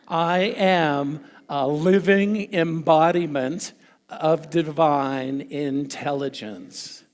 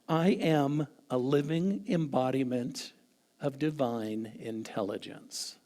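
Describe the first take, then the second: First: It is said loudly, with strong energy. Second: It is said in a calm, plain way.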